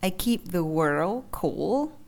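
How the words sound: The last word has a broken, dipping pitch. The speaker calls it wrong. "các bạn lại đọc thêm dấu ngã đằng sau"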